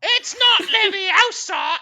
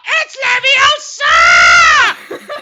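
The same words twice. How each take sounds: First: High, loud, slow scolding correction; hammed-up know-it-all girl; Hermione impression. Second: Very high, very loud, very slow shriek; Hermione impression. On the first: Mocking Hermione correcting Ron, high loud drawn-out scold. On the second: Mocking Hermione fixing the pronunciation, high slow shrieking correction. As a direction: screech it like an outraged know-it-all. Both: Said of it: "my world-renowned ... impression of".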